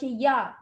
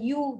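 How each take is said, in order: First: The y is followed by an a vowel. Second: The y is followed by a u vowel. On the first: The speaker calls it right. "mesti dibaca ya" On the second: The speaker calls it wrong. "bukan you"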